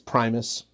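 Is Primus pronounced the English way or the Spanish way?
English. The word is pronounced the English way. "that's how we pronounce the word in English"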